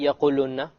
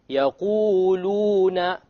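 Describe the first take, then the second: First: The long vowels are cut short. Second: The long vowels are held for two counts. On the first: The speaker calls it wrong. "You don't say يَقُولُنَّ. You have to make it long" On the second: The speaker calls it right.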